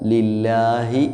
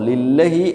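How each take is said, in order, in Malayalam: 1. ഇരട്ട 'l' ന് ശേഷമുള്ള സ്വരം ദീർഘമാണ്. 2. ഇരട്ട 'l' ന് ശേഷമുള്ള സ്വരം ഹ്രസ്വമാണ്. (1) "ലില്ലാഹി എന്നാണ്" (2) "ലില്ലഹി എന്നല്ല വായിക്കുക"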